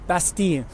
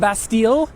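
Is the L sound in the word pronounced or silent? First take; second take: silent; pronounced. First: The L sound is not pronounced. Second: The L sound is clearly pronounced. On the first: The speaker calls it right. "I try to use the local pronunciation" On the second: The speaker calls it wrong. "They pronounce the L. Obviously, that's wrong"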